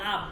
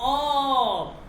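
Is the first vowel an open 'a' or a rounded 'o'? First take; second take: open a; rounded o. First: The vowel is an open 'a' sound. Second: The vowel is a rounded 'o' sound. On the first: This is how people in this region say it. The speaker calls it wrong. "আমরা আমাদের এই অঞ্চলে এটাকে আব বলে" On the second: This is the standard Persian pronunciation. The speaker calls it right. "কিন্তু শুদ্ধ উচ্চারণ হচ্ছে অব"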